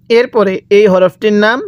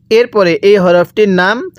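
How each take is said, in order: Both takes have the same delivery.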